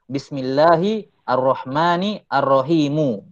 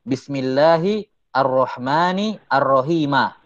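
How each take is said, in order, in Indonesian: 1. Kata terakhir berakhir dengan vokal u. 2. Kata terakhir berakhir dengan vokal a. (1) "bisa dibaca rafa" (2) "bisa dibaca nasab"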